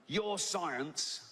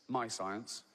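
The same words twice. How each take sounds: First: "Your science" read as the tweet's bad spelling; misspelt science. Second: Said in the usual way. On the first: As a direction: stress the "Your".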